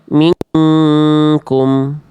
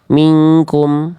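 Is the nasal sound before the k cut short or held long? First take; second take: held long; cut short. First: The nasal sound before k is held long. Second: The nasal sound before k is cut short. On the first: The speaker calls it right. "harusnya ditahan dulu juga dua harokat" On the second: The speaker calls it wrong. "akhirnya ini dipangkas ya... cuma tadi cuma gini"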